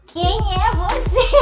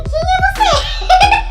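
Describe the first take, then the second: First: Put-on high, slow drunken question; a lighter replay of the drunken "Quem é você?"; drunk woman. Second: Put-on very high, very slow, laughing drunk question; loud, stretched, giggling drunk "Quem é você?"; drunk woman. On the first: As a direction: squint and drawl it out like you're tipsy. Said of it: "E eu olhava assim". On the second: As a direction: ask it like you're giggly drunk and can't recognise anyone. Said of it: "Porque eu fico muito doida".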